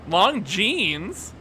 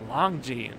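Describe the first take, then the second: First: The name ends with an s sound. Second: The name ends without an s sound. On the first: The speaker calls it wrong. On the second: The speaker calls it right.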